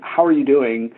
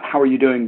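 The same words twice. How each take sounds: First: It is asked earnestly, with real concern. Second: It is asked casually, in passing.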